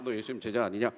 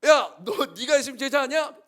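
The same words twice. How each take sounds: First: Low, monotone scripture question; mock solemn reading, loud but low; stiff Bible reading. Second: High, very loud challenge; heated, real-life confrontation; urgent accusation. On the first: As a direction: recite it like a written verse, no urgency. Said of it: "성경을 읽으면 우리 그렇게 읽잖아". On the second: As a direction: shout it as if catching him red-handed. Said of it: "엄청 긴박하지 않았을까". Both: Shown as a demonstration.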